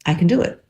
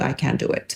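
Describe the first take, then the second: First: Brighter, bolder I can do it; confident. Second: Soft, hushed self-talk; quietly unsure; quiet murmur. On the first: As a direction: say I can do it with a lift on do. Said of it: "But if I need to". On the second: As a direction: murmur it to yourself. Quiet then bold. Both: Shown as a demonstration.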